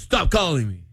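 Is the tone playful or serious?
serious. It sounds serious, really meaning it.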